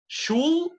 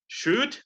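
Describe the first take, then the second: First: An L sound is pronounced before the final D. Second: No L sound; it ends with a clear D. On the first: The speaker calls it wrong. "Should is bad" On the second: The speaker calls it right. "but should is good"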